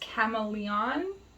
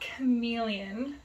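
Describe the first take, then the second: First: It sounds like the name spelled camaleon. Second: It sounds like the English word chameleon. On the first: The speaker calls it right. "it's chameleon, I think. ... It's C A M A L E O N" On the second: The speaker calls it wrong. "it's not chameleon"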